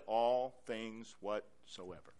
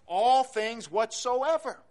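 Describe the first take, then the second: First: "All things whatsoever" lower and slow; solemn quote. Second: "All things whatsoever" slow, higher and louder; slow emphatic stress. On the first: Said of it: "But Jesus said". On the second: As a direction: drive each word of "All things whatsoever". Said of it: "Is there something about those words". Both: Shown as a demonstration.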